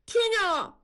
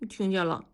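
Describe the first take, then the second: First: Put-on much higher, louder boy's answer; boy made to answer louder, high and loud. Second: Said in the usual way. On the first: A narrator's reading. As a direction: blurt it out loud and high like a scolded kid. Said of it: "大宝放大了声音说". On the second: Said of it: "大声点儿".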